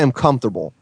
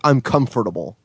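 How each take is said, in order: First: "comfortable" squeezed to three syllables, cumf-ter-bull; usual pronunciation. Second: "comfortable" with every syllable, cum-fer-ta-bull; over-correct pronunciation. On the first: Shown as a demonstration. Host showing his own way, "comfortable" as cumf-ter-bull. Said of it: "I say I'm comfortable". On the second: Retold or imitated. Host mocking fussy speakers, "comfortable" as cum-fer-ta-bull. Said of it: "when they say I'm comfortable".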